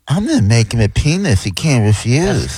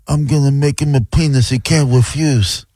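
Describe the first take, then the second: First: It is a campier, gayer Godfather impression. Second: It is a plain Godfather impression.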